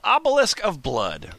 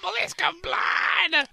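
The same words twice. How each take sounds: First: It is said in a plain speaking voice. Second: It is said in a loud heavy-metal voice.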